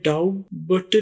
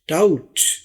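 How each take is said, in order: First: A b sound is pronounced in the word. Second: No b sound is pronounced in the word. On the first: The speaker calls it wrong. "आपने डाउट बट नहीं कहना" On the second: The speaker calls it right. "यह है डाउट"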